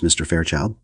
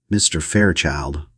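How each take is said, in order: First: Said in the usual way. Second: A slow, mild mocking echo of the name; parroting. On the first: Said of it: "Missus Morier turned to Fairchild". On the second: A narrator's reading. Taliaferro repeating the hostess, slow parroted echo. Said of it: "Mister Taliaferro parroted".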